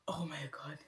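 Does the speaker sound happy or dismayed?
dismayed. It sounds dismayed, not pleased.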